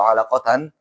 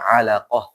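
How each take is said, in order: First: The word ends with 'tan'. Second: The word ends with an 'h' sound. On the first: The reading continues without stopping. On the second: The reader stops on this word.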